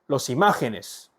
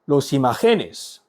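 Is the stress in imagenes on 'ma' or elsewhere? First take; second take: ma; elsewhere. First: The stress falls on the syllable ma. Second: The stress falls on a syllable other than ma. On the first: The speaker calls it right. "틸데를 착 원래 있던 위치에 추가해 줍니다. 읽어보겠습니다" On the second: The speaker calls it wrong. "틸데 없이 없다고 생각하고 읽어볼까요? ... 강세가 원래에서 바뀌었죠"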